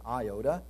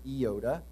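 First: The word is given its usual English pronunciation. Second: The word is given its Greek pronunciation. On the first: "but we pronounce it iota" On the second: "More commonly in Greek, it's iota"

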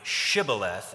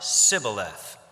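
First: The word begins with an 'sh' sound. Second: The word begins with an 's' sound. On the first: "the sh sound in the word Shibboleth" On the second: "it comes out Sibboleth"

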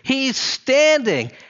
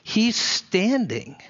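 First: It is said loudly, for everyone to hear. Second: It is said quietly, almost to oneself.

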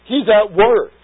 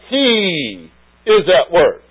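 First: The word 'He' is unstressed and contracted. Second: The word 'He' carries strong stress.

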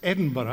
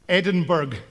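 First: The name ends with a soft 'burra' sound. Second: The name ends with a hard 'burg' sound. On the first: This is how locals say it. The speaker calls it right. "How do we get Burra out of that? But it's Edinburgh" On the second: Someone else said it this way. The speaker calls it wrong. "Did you hear him say Edinburgh?"

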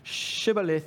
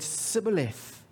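First: The word begins with a 'sh' sound. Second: The word begins with an 's' sound. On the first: This is how the word should be said. The speaker calls it right. "couldn't make the sh sound that they should have" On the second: The speaker is from a different region. The speaker calls it wrong. "when the person said it wrong"

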